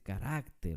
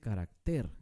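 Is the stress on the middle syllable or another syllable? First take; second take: middle; another. First: The stress is on the middle syllable. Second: The stress is not on the middle syllable. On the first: The speaker calls it right. "se dice carácter, por eso es una palabra grave" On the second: The speaker calls it wrong. "No se dice carácter"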